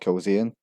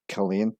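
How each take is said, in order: First: A 'z' sound is heard in the middle. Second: No 'z' sound is heard in the middle. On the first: The speaker calls it wrong. "often mispronounced as Kilzean" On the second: The speaker calls it right. "It's actually pronounced as Killeen with a silent Z"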